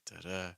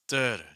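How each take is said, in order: First: The stress is on the second syllable. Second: The stress is on the first syllable.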